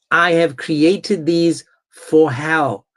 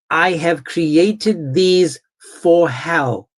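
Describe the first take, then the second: No difference in how they are said.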